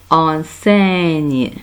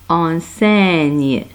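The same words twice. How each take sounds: Both takes have the same delivery.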